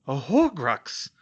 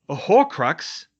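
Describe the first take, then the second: First: Gasped echo. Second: Slow, loud, shocked; gasped. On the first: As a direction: repeat it in disbelief. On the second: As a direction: gasp out the word. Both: Acted. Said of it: "Ron gasped".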